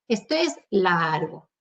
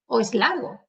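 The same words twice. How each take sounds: First: "largo" with the a held a little; restrained "laargo", not exaggerated; slightly elongated vowel. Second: Said in the usual way. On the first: Shown as a demonstration. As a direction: stretch the a of "largo" modestly, low and slow. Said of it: "alargaría un poquito al menos".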